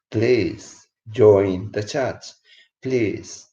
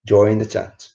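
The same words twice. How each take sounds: First: Drawn out, every word stretched; slow, earnest plea; slow pleading. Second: Said in the usual way. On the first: Real, not acted. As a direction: plead slowly so they listen. Pleading for viewers to join.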